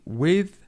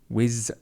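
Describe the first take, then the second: First: The word ends with a th sound. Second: The word ends with a z sound. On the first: The speaker calls it right. "it should be with" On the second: The speaker calls it wrong. "pronunciation of the sound whiz"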